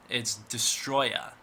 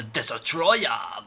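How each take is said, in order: First: "[name]" slow and clear, Des-troy-a, three syllables; correct pronunciation. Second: "[name]" said slowly as "Dis-a-troya", the wrong way; wrong pronunciation. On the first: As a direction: lay out "[name]" slowly, ending in a short a. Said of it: "that's how I'm gonna pronounce it". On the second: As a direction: drag out "[name]" with an extra syllable, like the nerd says it. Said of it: "it's not pronounced". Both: Shown as a demonstration.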